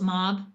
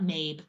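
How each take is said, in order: First: The name rhymes with job. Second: The name rhymes with babe. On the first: The speaker calls it right. "I think that's how you pronounce it" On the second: The speaker calls it wrong.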